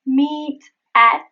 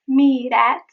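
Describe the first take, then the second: First: "Meet at" apart with clear Ts; separated words. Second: "meet at" as one word, T tapped; linked flap T. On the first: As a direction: pause between "Meet" and "at". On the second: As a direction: flick "meet" into "at". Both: Shown as a demonstration. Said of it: "It is meet at eleven".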